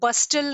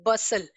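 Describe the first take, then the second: First: The t sound is pronounced in the middle. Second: The t sound is silent in the middle. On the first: The speaker calls it wrong. "बस्टल नहीं pronounce करेंगे" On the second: The speaker calls it right. "टी is silent"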